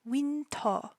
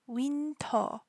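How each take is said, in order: The two takes are said the same way.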